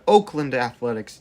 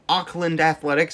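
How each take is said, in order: First: The first vowel sounds like oh. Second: The first vowel sounds like aw. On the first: The speaker calls it right. "it's the Oakland Athletics" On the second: The speaker calls it wrong. "it's not the Auckland Athletics"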